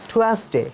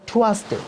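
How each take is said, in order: No difference in how they are said.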